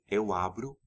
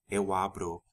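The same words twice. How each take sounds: First: The final vowel is a weak 'u' sound. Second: The final vowel is a full 'o' sound. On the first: "weakened to u and e sounds normally" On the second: "Instead of"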